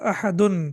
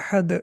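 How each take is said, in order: First: The word ends with a final -un sound. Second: The word ends bare, without a final -un. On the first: This is the full form when not stopping. "Basically ये था अहदुन" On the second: The reciter has stopped at this word. "अहद पे रुक गए"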